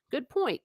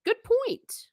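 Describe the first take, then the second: First: Said in the usual way. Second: Good point in a much higher, bright-pitched voice; emphatic agreement. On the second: Retold or imitated. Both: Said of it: "And I'm like".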